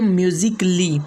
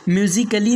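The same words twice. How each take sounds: First: The a before -lly is left silent. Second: The a before -lly is pronounced aloud. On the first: The speaker calls it right. "बल्कि म्यूजिकली" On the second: The speaker calls it wrong. "म्यूजिकली नहीं"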